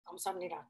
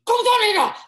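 First: It is said calmly at normal volume. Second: It is yelled loudly and angrily.

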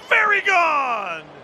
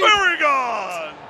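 First: The voice is pitched higher. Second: The voice is pitched deeper. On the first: "maybe a little deeper" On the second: "Too deep"

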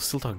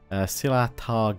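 First: The word is said with two syllables. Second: The word is said with three syllables. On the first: The speaker calls it wrong. "not Siltar" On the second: The speaker calls it right. "Silatar Guard"

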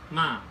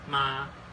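First: The pitch falls sharply from high. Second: The pitch stays high and level. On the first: To scold. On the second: Mother.

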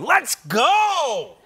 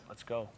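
First: It sounds frustrated, like after a bad play. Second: It sounds calm, quietly before the game starts.

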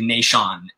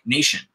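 First: The stress falls on the second syllable. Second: The stress falls on the first syllable. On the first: The speaker calls it wrong. "as opposed to nation. No one says nation" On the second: The speaker calls it right. "It's important to me that it sounds like nation and foundation"

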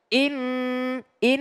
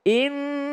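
First: The word is chopped and pressed. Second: The word flows smoothly through the doubled n. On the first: The speaker calls it wrong. "bukan in in nggak ditekan" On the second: The speaker calls it right. "tapi dia mengalir"

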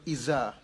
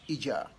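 First: The middle consonant is a z sound. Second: The middle consonant is a j sound. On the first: "Instead of Iza" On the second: "They pronounce letter Z in the sound of J"

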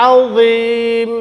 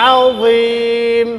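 The two takes are said the same way.

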